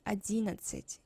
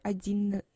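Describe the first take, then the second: First: Одиннадцать with just one short n; single n. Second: Одиннадцать broken at a doubled н, ending in a laugh; both n's sounded. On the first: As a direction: run the double н of одиннадцать into one. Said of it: "it's enough to pronounce just one". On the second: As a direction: labour both н's in одиннадцать, then laugh. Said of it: "It's kinda difficult, uh, in for me to pronounce". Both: Shown as a demonstration.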